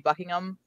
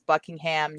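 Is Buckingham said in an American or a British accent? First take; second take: British; American. First: It is said with a British accent. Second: It is said with an American accent. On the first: "whereas we say" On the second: "The test for most American accents seems to pronounce in places like UK as"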